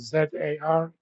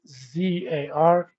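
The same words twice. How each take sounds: First: It is said the way Canadians say it. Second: It is said the usual, non-Canadian way.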